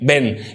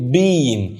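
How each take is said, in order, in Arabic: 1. تُنطق قصيرة ومختصرة، على الطريقة الأمريكية. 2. تُنطق كاملة، بلكنة بريطانية. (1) "في الأمريكان إنجلش عشان طبعا نتكلم بسرعة ونصغر الكلام بيقولها been" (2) "في البريتش إنجلش أو في الإنجليزي البريطاني يعني في اللهجة البريطانية بيقولوا been"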